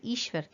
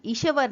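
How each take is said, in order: First: ईश्वर with a half श, glided straight into व, ईश्वर; correct pronunciation. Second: ईश्वर said with an extra vowel, like ई-श-वर; wrong pronunciation. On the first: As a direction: say ईश्वर as two syllables, ईश्-वर. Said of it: "ईश्वर कहते हैं". (ईश्वर का सही उच्चारण, आधा श) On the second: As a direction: split ईश्वर into three syllables, इशवर. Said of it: "क्योंकि हम ईश्वर नहीं बोलते". (ईश्वर का गलत उच्चारण, श और व के बीच अ जोड़कर) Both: Shown as a demonstration.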